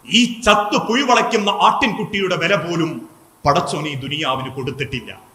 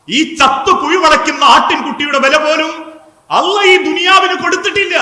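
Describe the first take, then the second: First: Tearful saying. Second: High, raised preaching voice, climbing to the end; impassioned repeat. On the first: Preacher voicing the Prophet beside the dead lamb, mildly tearful. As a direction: let it fall away in understated sorrow. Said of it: "പ്രവാചകൻ കണ്ണുനീരോടെ പറഞ്ഞു". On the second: Preacher repeating the Prophet's words to the congregation, impassioned. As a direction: drive it home higher and louder. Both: Retold or imitated.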